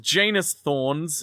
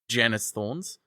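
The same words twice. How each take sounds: First: The first syllable does not rhyme with 'can'. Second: The first syllable rhymes with 'can'. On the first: It no longer sounds like an ordinary person's name. "they changed the pronunciation" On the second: It sounds like an ordinary person's name. "originally pronounced with the first syllable rhyming with can"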